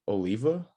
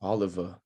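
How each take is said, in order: First: "Oliva" as oh-LEE-vuh; tentative mispronunciation. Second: "Oliva" as AH-luh-vuh; corrected pronunciation. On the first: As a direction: stress the middle of "Oliva", rising like a question. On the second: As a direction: stress the first syllable of "Oliva", short middle vowel. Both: Real, not acted. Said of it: "try and pronounce your last name".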